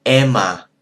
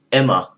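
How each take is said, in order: First: "Emma" with an open, drawn-out first vowel, louder; Vietnamese pronunciation. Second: Said in the usual way. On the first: Shown as a demonstration. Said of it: "They say Emma". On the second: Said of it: "they don't say Emma like we do".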